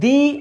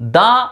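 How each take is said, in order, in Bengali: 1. 'the' শব্দটি দীর্ঘ ee স্বরধ্বনি দিয়ে শেষ হয়। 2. 'the' শব্দটি হ্রস্ব uh স্বরধ্বনি দিয়ে শেষ হয়। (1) "এর উচ্চারণ হবে দি" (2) "দা এর উচ্চারণটা হচ্ছে দা"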